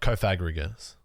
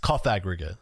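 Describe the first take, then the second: First: The first syllable does not sound like 'coffin'. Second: The first syllable sounds like 'coffin'. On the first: The speaker calls it wrong. "not Caphagrigus" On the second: The speaker calls it right. "it's Caphagrigus"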